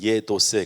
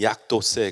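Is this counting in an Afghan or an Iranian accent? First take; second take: Iranian; Afghan. First: The first word has a closer 'yek' vowel. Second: The first word has an open 'yak' vowel. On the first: "이란에서는 예도세 그래요" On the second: "다리어에서는 약도세 그러는데"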